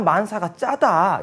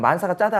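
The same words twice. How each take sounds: First: The phrase is said with strong, punchy emphasis. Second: The phrase is said plainly, without added emphasis. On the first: The speaker calls it right. "악센트를 넣어서 아 만사가 짜다 이렇게" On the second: The speaker calls it wrong. "그냥 만사가 짜다 하지 말고"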